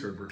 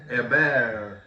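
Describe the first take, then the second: First: The name is said the English way, with a T. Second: The name is said the French way, without a T.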